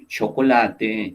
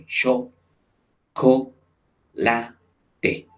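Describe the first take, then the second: First: Said in the usual way. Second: "Cho, co, la, te" each syllable on its own with pauses; isolated syllables "Cho", "co", "la", "te" with pauses. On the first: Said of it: "cada sílaba separada". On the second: Shown as a demonstration. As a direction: chop "chocolate" into "Cho", "co", "la", "te". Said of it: "cada sílaba separada por ese guión".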